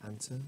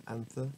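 First: "anter" with a hard t, softly; AN-ter, no th in "anter"; alternative pronunciation. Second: "anther" with a soft th, questioning rise; AN-thur, tongue between teeth for "anther"; alternative pronunciation. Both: Shown as a demonstration. Offers alternative reading of word.

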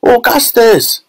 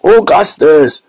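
First: Very high-pitched mother's cry; high, urgent woman's call; Missus Gloop. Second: Drawn-out father's cry, moderately raised pitch; long, fatherly shout; Mister Gloop. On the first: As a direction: cry out shrilly for your son. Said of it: "cried Missus Gloop". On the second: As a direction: call slowly after your son. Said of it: "cried Mister Gloop". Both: A narrator's reading.

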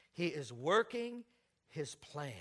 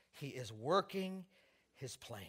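First: Slow, weighted working; stress on working. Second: Slow, weighted working, fading soft on his plan; stress on working. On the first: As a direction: lean on working. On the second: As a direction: lean on working and let it drop. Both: Real, not acted.

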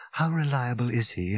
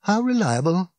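First: Understated, subdued question; quietly disheartened; sinking voice. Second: Higher-pitched echoed question, rising; rhetorical, lifted in pitch; hollow disbelief. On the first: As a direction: ask it with the hope draining away. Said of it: "asked Fenchurch in a sinking voice". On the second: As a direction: throw the question back, bleakly incredulous. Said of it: "He gave a hollow laugh". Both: A narrator's reading.

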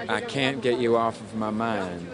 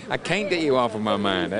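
First: Can't with a flat nasal vowel, slowed; first try at the line. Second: "can't" with an open drawn vowel like paint; corrected can't. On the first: Retold or imitated. Tom singing the lyric to his coach, unpolished can't. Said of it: "I would say things like". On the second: Shown as a demonstration. Tom redoing the lyric for his coach, "can't" opened up. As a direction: stretch "can't" to rhyme with paint. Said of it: "So every time I was like".

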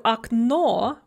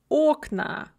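First: Окно with the final О stressed; stress on second syllable. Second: Окна with the opening О stressed and drawn out; stress on first syllable. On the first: Teacher showing the singular of window, окно stressed at the end. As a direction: lean on the last syllable of окно. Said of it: "stressed on the second syllable in the singular". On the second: Teacher showing the plural of window, окна stressed at the start. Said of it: "stress shifts to the first syllable". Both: Shown as a demonstration.

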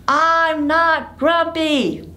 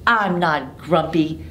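First: High, slow, drawn-out denial; high, slow and sulky; grumpy monkey insisting. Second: Said in the usual way. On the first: Acted. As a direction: stomp out each word with the kids. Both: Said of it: "Say it with me".

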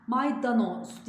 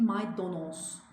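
First: "Maydanoz" louder and higher, with a in the middle; emphatic mistaken "Maydanoz", middle vowel a; wrong pronunciation. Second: "maydanoz" drawn out slowly with o in the middle; slow "maydanoz", middle vowel rounded to o; correct pronunciation. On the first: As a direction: sound may-da-noz in "Maydanoz". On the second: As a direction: stretch "maydanoz" as may-do-noz. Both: Shown as a demonstration. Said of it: "Maydanoz değil".

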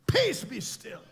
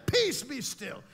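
First: Peace, be still called out high and loud; commanding rebuke. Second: Peace, be still said firmly and a bit loud; commanding. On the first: Jesus rebukes the storm, loud and commanding. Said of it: "he stood up and he said". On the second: Jesus speaking to the storm, firm. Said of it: "He said". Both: Acted.

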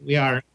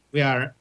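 No difference in how they are said.

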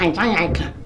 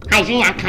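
First: Mock sobbing imitation, lower and softer; mock crying. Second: Said in the usual way. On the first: Wife mocks her husband's excuse with a fake crying whimper.

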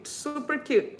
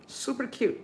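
First: Delighted. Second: Soft aside. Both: Real, not acted.

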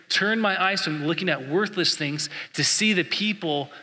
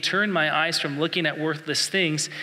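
First: "Turn my eyes from looking at worthless things" prayed to God, stressing "see"; prayer. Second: "Turn my eyes from looking at worthless things" read slowly as a verse; scripture reading. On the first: Pastor praying the verse back to God, earnest plea. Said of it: "I challenge you to meditate on that". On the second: Pastor quoting Psalm one nineteen, slow reading voice. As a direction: read "Turn" with weight, then the rest slow and even like the printed verse. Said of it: "It says this". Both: Shown as a demonstration.

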